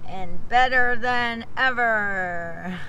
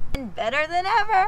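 First: It is said flatly, without much excitement. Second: It is said with lively excitement.

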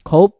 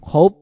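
First: The word ends with a closed p sound. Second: The word ends with a closed p sound.

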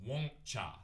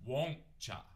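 Both takes have the same delivery.

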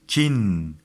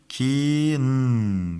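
First: The word is said quickly as one unit. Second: The word is said slowly and drawn out.

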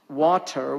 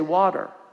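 First: The middle sound is a clear T. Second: The middle sound is a D.

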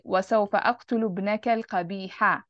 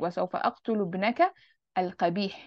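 First: The last word ends with a short vowel. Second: The last word ends on a consonant. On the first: "I wouldn't say" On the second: "they will just pause at the last haraka"

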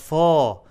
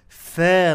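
First: The syllable is said heavy and full. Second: The syllable is said light and thin. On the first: The speaker calls it wrong. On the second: The speaker calls it right. "make the فا light"

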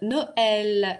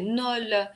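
First: The word has two syllables with a separate e vowel. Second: The word has one syllable with no e vowel. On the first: The speaker calls it right. "а так у нас получается «ноэль»" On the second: The speaker calls it wrong. "если бы вот этой «э» трема не было, мы бы прочитали «ноль»"

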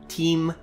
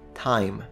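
First: The vowel is a long ee sound. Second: The vowel is an eye sound. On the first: This is the older medieval pronunciation. "the vowel I, for the majority of the medieval period, was actually pronounced as a long E" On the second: This is the later, modern pronunciation. "only finally in the 18th century, I"

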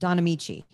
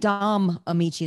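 First: The first name ends with an n sound. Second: The first name ends with an m sound. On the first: The speaker calls it right. "It's Don, D-O-N, Don Amici" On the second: The speaker calls it wrong. "You keep saying Dom Amici"

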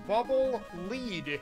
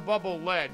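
First: The word lead rhymes with bead. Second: The word lead rhymes with bed. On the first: "supposedly, it's called the bubble lead" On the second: "It's the bubble lead because it's made of lead"

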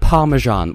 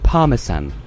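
First: It is said with an American pronunciation. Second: It is said with a non-American pronunciation. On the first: The speaker calls it wrong. "They pronounce it Parmesan" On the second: The speaker calls it right. "Americans can't pronounce the word parmesan"

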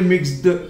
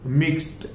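First: The ending is not pronounced as t. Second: The ending is pronounced as t. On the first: The speaker calls it wrong. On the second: The speaker calls it right.

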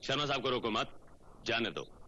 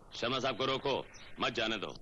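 First: The pause comes after 'mat'. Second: The pause comes before 'mat'.

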